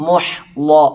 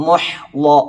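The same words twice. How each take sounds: No difference in how they are said.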